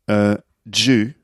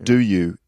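First: It begins with a j sound. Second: It begins with a clear d sound.

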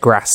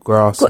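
First: The vowel is short, as in a northern accent. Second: The vowel is long, as in a southern accent. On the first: The actor slipped out of the required accent. The speaker calls it wrong. "saying like grass" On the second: The actor kept the required accent. The speaker calls it right. "instead of grass"

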